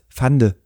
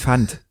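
First: The word ends with an added unstressed vowel. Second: The word ends on a consonant, no vowel. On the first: The speaker calls it wrong. "bitte sag nicht Fande" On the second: The speaker calls it right. "Das heißt Fand"

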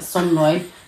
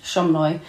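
First: The name begins with a plain S sound. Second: The name begins with an SH sound. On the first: "spelt not like that, like Somloy" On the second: "you said like an SH"

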